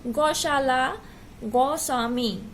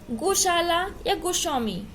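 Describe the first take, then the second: First: "गौशाला, गोस्वामी" opening on a wide "gau" instead of "go"; incorrect pronunciation. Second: Said in the usual way. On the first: Shown as a demonstration. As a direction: widen the first o of "गौशाला, गोस्वामी" to au. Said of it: "अशुद्ध शब्द इसका क्या है". ("गौशाला, गोस्वामी" में ओ की जगह औ बोलें) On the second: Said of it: "ये शुद्ध है".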